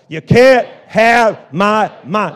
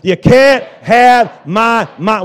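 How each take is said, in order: First: It is said loudly. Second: It is said even more loudly. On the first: "Say it loud" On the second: "A little bit louder"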